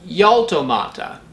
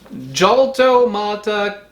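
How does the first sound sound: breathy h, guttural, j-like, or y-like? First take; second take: y-like; j-like. First: It begins with a gliding y sound. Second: It begins with an English j sound. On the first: "with an English Y" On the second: "pronounce it wrong"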